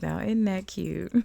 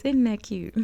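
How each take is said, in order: First: Put-on cooed with a touch of country girl; light country girl voice. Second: Put-on higher, louder country girl twang; country girl cooing, pitched up and punchy. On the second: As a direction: play up the country girl accent a bit. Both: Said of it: "In my country girl voice".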